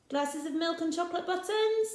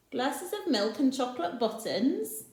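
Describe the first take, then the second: First: Higher pitched, buttons rising in disbelief; really, milk and buttons?; incredulous question. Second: Said in the usual way. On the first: Acted. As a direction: Rossetti teasing the children's odd list. Rossetti questions the list.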